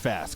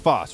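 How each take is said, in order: First: The name rhymes with the word mass. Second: The name rhymes with the word boss. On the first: The speaker calls it right. "I always say the wrong one" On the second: The speaker calls it wrong. "Am I saying it wrong?"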